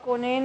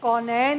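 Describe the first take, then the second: First: The first vowel is the plain 'o' sound. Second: The first vowel is the open 'au' sound. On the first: The speaker calls it wrong. "इनके चार दफ़ा कोनैन कोनैन कहने से इनके number कटे" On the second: The speaker calls it right. "कौनैन में और कोनैन में बहुत फ़र्क है"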